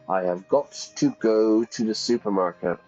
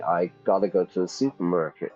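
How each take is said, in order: First: Have got to is said fully, word by word. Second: Got to is reduced and blended into gotta. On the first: The speaker calls it wrong. "I don't say" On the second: The speaker calls it right. "I would say"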